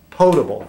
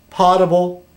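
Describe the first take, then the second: First: Potable said as "poe-table", long o; corrected potable. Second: Potable said as "pah-table", short a; mispronounced potable. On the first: Correcting himself for viewers, potable as "poe-table". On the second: Reading to viewers, slips on potable as "pah-table". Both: Shown as a demonstration. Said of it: "I'm sorry".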